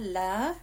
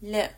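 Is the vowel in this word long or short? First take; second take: long; short. First: The vowel is stretched long. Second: The vowel is kept short. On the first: It means no. The speaker calls it wrong. "So it's not la, or it would mean completely the opposite. Please don't stretch it" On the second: It means surely. The speaker calls it right. "keep it short"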